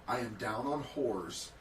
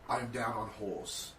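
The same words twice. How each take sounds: No difference in how they are said.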